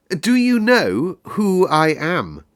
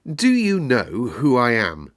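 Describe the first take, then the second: First: Put-on higher, slow, haughty boy demanding, stress on do; slower and more lordly demand; more imperious. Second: Put-on a haughty boy's question, stress on do; boy challenging the gardener, demanding. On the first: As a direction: draw it out like a royal command. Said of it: "still more imperiously". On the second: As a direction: lean on do like a little rajah. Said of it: "demanded the Rajah".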